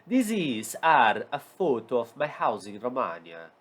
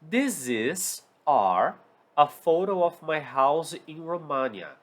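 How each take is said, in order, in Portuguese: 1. Ela é dita com sotaque romeno. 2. Ela é dita com sotaque comum.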